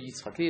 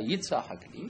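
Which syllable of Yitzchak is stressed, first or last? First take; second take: last; first. First: The stress is on the last syllable. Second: The stress is on the first syllable. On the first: The speaker calls it wrong. "לא יצחק לי" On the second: The speaker calls it right. "אלא יצחק לי, ... הטעם עובר אל היצ ולא על החק"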